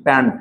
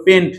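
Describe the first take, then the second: First: "প্যান্ট" with an open a vowel; wrong form. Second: "পেন্ট" with an e vowel; correct form. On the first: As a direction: say "প্যান্ট" like English "pant", as the mistake. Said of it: "এরকম করা যাবে না". ("প্যান্ট", অ্যা স্বরে ভুল উচ্চারণ) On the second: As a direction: model "পেন্ট" with e, as in "pen". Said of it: "অনেকে এটা ভুল লিখে ফেলায়". ("পেন্ট", এ-কার দিয়ে সঠিক উচ্চারণ) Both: Shown as a demonstration.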